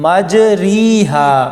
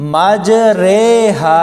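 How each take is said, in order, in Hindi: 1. दूसरा स्वर लंबी 'ee' ध्वनि है। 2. दूसरा स्वर 'ay' ध्वनि है। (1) "ये लफ्ज ऐसे नहीं पढ़ा जाएगा" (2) "बल्कि इसको हम पढ़ेंगे मजरेहा"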